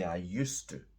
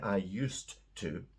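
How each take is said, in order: First: Used and to run together in reduced form. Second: Used and to are said fully and separately. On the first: The speaker calls it right. "We say I used to. So it sounds like U S E, to" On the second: The speaker calls it wrong. "I don't say I used to because it's too clunky"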